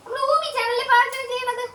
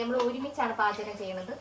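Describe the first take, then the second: First: Much higher, louder coo of നമ്മൾ. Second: Said in the usual way. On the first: Real, not acted. Same line to baby.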